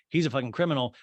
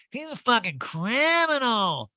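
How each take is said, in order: First: Said in the usual way. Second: Very high, slow mock outrage; hammed-up indignant impersonation; Erica. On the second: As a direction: draw out the accusation in a swooping caricature. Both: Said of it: "And Erica's like".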